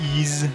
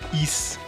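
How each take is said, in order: First: The word ends with a buzzing z sound. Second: The word ends with a hissing s sound. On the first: "not really a Z sound" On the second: "like a S sound"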